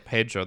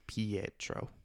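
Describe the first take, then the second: First: The name is said like Pedro. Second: The name is said like Pietro. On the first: The speaker calls it wrong. "you almost say Pedro" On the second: The speaker calls it right. "There's a like Pietro"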